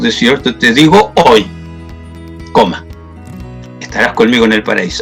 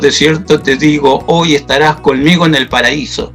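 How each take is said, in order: First: The pause comes after the word 'hoy'. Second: The pause comes before the word 'hoy'.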